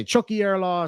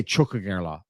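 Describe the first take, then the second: First: "Chucky air law" with no g sound, said as "air"; "Chucky air law", northern style; northern pronunciation. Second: Put-on "Chuck a girl law" with a clear "girl", lower; "Chuck a girl law" with a clear g and l, southern style; southern pronunciation. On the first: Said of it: "some people would say". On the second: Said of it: "Some people, I would say". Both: Shown as a demonstration.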